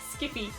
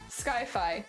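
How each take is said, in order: First: The first syllable sounds like 'skip'. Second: The first syllable sounds like 'sky'. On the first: "actually Skyfi is pronounced Skippy" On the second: "I call it Skyfi, like sky high"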